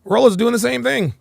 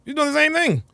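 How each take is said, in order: First: Said in the usual way. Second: High, laughing disbelief. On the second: Real, not acted. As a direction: laugh it out, pitched up.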